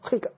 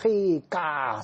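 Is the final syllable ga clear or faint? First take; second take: faint; clear. First: The final ga is faint, only a trailing sound. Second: The final ga is strong and clearly separate.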